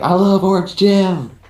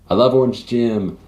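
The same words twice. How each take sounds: First: It is said louder. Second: It is said at a normal, quieter volume.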